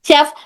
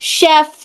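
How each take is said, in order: First: The f is made with rounded lips. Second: The f is made with upper teeth on lip. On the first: The speaker calls it wrong. "होंठ को इस तरह से गोल गोल करते, गोल करने की गलती करते" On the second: The speaker calls it right. "शेफ शेफ इस तरह से है, ऊपर के दो दांत नीचे की होंठ की तरी को टच होकर"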